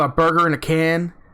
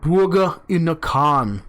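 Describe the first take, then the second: First: It is said in a plain American accent. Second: It is said in an imitated Russian accent.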